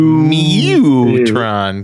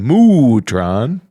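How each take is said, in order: First: The first syllable sounds like 'mew'. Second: The first syllable sounds like 'moo'. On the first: "That's the overpronounced" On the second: "I can't say Moo-tron"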